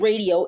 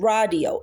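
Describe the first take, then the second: First: It is said with an English pronunciation. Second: It is said with a Hebrew pronunciation. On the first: Nobody in Israel will understand it. The speaker calls it wrong. "it's not radio" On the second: This is how people in Israel say it. The speaker calls it right. "it's radio"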